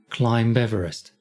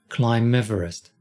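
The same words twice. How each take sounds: No difference in how they are said.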